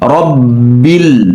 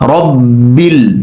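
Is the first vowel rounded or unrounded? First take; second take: unrounded; unrounded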